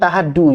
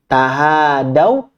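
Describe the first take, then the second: First: The last syllable ends in a plain 'u' vowel. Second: The last syllable ends in an 'au' diphthong. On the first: The speaker calls it wrong. "Jadi bukan tahadu ya" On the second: The speaker calls it right. "Yang benar tahadau"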